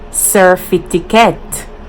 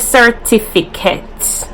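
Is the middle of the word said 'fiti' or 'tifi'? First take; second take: fiti; tifi. First: The middle sounds are swapped to 'fiti'. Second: The middle sounds are said as 'tifi'. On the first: "We say certificate" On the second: "We don't say certificate"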